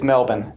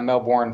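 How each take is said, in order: First: It is pronounced the Australian way. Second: It is pronounced the American way. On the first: It names the city in Australia. "But in Australia, if I said that, people would give me very dirty looks. it's Melbourne" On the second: It names the city in Florida. "We would say Melbourne, Florida"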